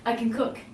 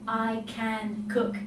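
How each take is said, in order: First: The three words blend together like one word. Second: Each word is pronounced fully and separately. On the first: "it sounds like it's almost one word. We string the three together" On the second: "If I was to really pronounce every word"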